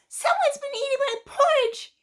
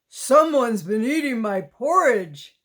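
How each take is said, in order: First: It is said in a small, high voice. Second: It is said in a big, deep voice. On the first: A small, young character is speaking. "he said in his wee little voice" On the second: A large, strong character is speaking. "Papa Bear bellowed in his great big voice"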